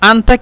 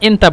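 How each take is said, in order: First: The word begins with an a vowel. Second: The word begins with an e vowel. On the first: This is the standard form. "আনতাকে মিশরীয়রা এন্তা বলে" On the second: This is how Egyptians say it. "মিশরীয়রা এন্তা বলে"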